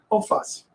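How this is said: It is said in a Rio de Janeiro accent. "como a gente falou no carioca"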